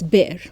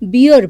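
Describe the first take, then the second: First: The vowel sounds like the one in 'bare'. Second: The vowel sounds like the one in 'beer'. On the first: The speaker calls it right. "It is pronounced as bear" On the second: The speaker calls it wrong. "is pronounced as beer by some people, but it is not"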